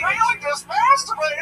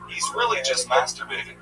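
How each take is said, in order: First: It is said in a weird put-on voice. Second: It is said in his normal voice.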